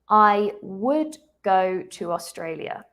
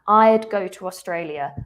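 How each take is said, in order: First: Both words "I would" are said in full. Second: "I would" is shortened to one syllable, "I'd". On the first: The speaker calls it wrong. "I've said, I would go to Australia" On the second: The speaker calls it right. "it's more common to use a contraction. So I would becomes I'd"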